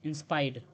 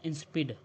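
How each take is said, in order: First: "इंस्पाइड" said as in-SPIDE, long i; alternative pronunciation. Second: "इंसिपिड" run together as in-spid, short i; alternative pronunciation. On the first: Teacher offering learners another reading of insipid, alternative pronunciation "इंस्पाइड". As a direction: say "इंस्पाइड" with an eye vowel in the last syllable. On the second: Teacher offering learners either reading of insipid, short-vowel pronunciation "इंसिपिड". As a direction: say "इंसिपिड" with a short i in the last syllable. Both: Shown as a demonstration. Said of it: "जो भी बोलें".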